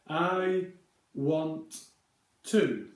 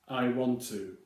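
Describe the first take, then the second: First: Each word is said separately with two T sounds. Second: The words run together with a single T sound. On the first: "if you say the phrase as you read it, you get three separate words" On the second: "in everyday conversation, we would say"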